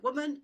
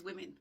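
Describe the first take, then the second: First: WOMAN said WUU-mun, louder, rising; singular pronunciation. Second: WOMEN said WIM-in; plural pronunciation. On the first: Teacher voicing learners' puzzle over the singular, stressed WUU-mun. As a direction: say WOMAN with a short oo in the first syllable. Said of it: "why is it woman". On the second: Teacher contrasting the plural with woman, pronounced WIM-in. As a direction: say WOMEN with a short i in the first syllable. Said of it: "then the plural is". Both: Shown as a demonstration.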